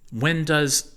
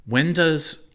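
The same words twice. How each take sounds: First: Squeaky high chipmunk pitch. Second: High squeaky giggling chipmunk; giggly chipmunk voice. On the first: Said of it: "I sounded like a chipmunk". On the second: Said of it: "I giggled like a chipmunk". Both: A narrator's reading.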